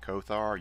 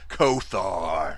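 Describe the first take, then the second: First: The name is said plainly, without extra force. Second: The name is said loudly and forcefully. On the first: The speaker calls it wrong. "every time you say Kothar" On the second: The speaker calls it right. "you need to say Kothar! ... Say it with some testosterone"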